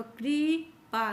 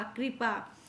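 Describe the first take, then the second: First: कृपा drawn out as kree, then paa; syllable by syllable. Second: Said in the usual way. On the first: Shown as a demonstration. Teacher correcting pupils on कृपा, slow split syllables. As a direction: stretch कृपा slowly, splitting its two syllables. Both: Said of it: "कृपा बोला करो".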